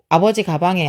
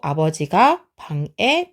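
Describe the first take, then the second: First: The break comes right after abeoji. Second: The break comes right after abeojiga. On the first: Father's bag. The speaker calls it wrong. "끊어 읽기 잘해야 돼요. ... 아니고" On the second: Father enters the room. The speaker calls it right. "끊어 읽기 잘해야 돼요"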